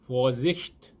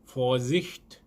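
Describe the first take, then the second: First: The word begins with an f sound. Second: The word begins with an f sound.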